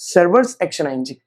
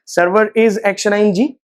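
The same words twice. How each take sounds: First: "servers" run together as one word, with no separate "is"; contracted. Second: Slow and careful, with "Server is" kept as two separate words; uncontracted. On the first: Teacher modelling the natural contracted form, smooth and unhurried. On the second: Teacher showing students the stiff uncontracted form, slow and careful. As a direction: spell out "is" in full, leaning on it with a rising tune. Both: Shown as a demonstration. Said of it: "इससे better है कि servers action ING".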